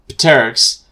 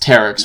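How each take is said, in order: First: The word begins with a sounded P. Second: The word begins with a silent P. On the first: The speaker calls it wrong. "I shouldn't be pronouncing the P" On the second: The speaker calls it right. "it's like pterodactyl, so it's pterix"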